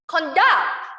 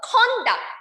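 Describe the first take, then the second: First: The stress is on the second syllable. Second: The stress is on the first syllable.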